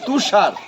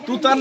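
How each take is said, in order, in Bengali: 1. মাঝের ব্যঞ্জনটি 'sh' ধ্বনি। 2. মাঝের ব্যঞ্জনটি 't' ধ্বনি। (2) "তুতার না তো"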